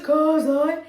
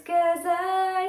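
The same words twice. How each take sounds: First: "'cause I" sung with rounded vowels, like "koz-oy"; wrong rounded vowels. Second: "'cause I" sung high as "kuh-zai"; open vowels. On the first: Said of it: "make sure it's not". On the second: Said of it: "it's 'cause I". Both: Shown as a demonstration.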